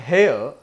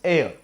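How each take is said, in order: First: The word begins with an h sound. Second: The word begins with a vowel sound. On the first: The speaker calls it wrong. "It is not hair" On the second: The speaker calls it right. "H is silent here. It is just pronounced as air"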